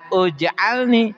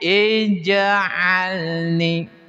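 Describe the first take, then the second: First: The word begins with a u vowel. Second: The word begins with an i vowel. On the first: The speaker calls it wrong. "jangan uj'alni" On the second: The speaker calls it right. "tapi ij'alni"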